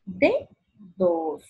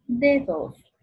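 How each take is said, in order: First: "Dedos" with DE pitched high, pause, DOS; stress on DE. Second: Said in the usual way. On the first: Shown as a demonstration. Teacher showing the tonic, high DE in split "Dedos". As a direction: split "Dedos" in two, lifting the first beat. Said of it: "Sílaba tónica". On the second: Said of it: "separa en sílabas".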